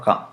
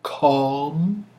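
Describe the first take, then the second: First: "calm" quick, with the L silent; short calm. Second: "Calm" held long and rising, L pronounced; drawn-out calm. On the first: Deciding it's a silent L, "calm" said short without it. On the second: Weighing the silent L, "Calm" said long with L. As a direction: stretch "Calm" and let the L sound. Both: Shown as a demonstration. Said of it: "I think it's a silent L".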